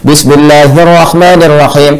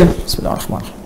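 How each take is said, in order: First: It is said loudly and clearly. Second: It is said very quietly, almost silently.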